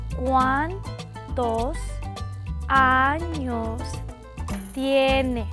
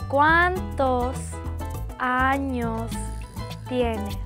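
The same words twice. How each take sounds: First: It is said very slowly. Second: It is said at normal speed.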